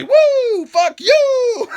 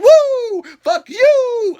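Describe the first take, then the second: First: Ric Flair woo. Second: High, loud laughing woo; Ric Flair woo. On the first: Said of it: "what he wanted to say". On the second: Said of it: "he's like". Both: Retold or imitated. Ric Flair cursing at Shane, high laughing woo.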